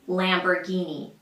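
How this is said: It is said with an American accent. "in the U S, they say Lamborghini"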